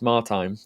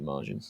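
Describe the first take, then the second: First: The name ends with a long 'teen' sound. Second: The name ends with a short 'gin' sound. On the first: The speaker calls it right. "Martine, I think it's pronounced" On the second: The speaker calls it wrong. "I always keep pronouncing it Margin"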